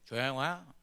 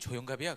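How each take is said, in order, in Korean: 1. 이 이름은 외국인 억양으로 발음돼요. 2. 이 이름은 한국 사람 억양으로 발음돼요. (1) "이름을 발음을 잘 못해" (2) "내 이름은 조영갑이야"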